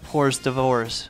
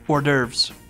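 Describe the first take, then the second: First: It is said like 'whores devours', with an h. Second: It is said like 'or-durves', without an h.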